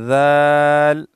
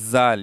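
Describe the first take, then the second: First: The first consonant is soft without a whistling hiss. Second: The first consonant is forceful with a whistling hiss. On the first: The speaker calls it right. "नरमी के साथ अदा किया जाता है जाल को। जाल में जो है सीटी की आवाज़ नहीं होती है" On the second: The speaker calls it wrong. "बाज़ लोग दाल को जाल पढ़ते हैं, आवाज़ मुंह से निकल जाता है"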